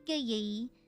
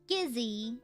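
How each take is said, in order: First: It is said with a southern Vietnamese accent. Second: It is said with a northern Vietnamese accent.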